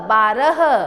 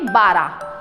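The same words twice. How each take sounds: First: The word ends with a sounded final h. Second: The word ends without the final h sound. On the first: The speaker calls it right. "सही रूप कौन सा है" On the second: The speaker calls it wrong. "लेकिन हम इसको क्या बोल देते हैं"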